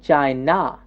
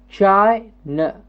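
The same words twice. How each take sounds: First: The final syllable has a full, open vowel. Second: The final syllable has a short, reduced vowel. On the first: The speaker calls it wrong. "I'm not saying China" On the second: The speaker calls it right. "notice the second syllable is a very short n"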